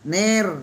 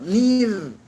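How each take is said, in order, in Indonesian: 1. Vokalnya terbuka, seperti e. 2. Vokalnya tertutup, seperti i. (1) "Masih ner" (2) "Yang kedua yang betul"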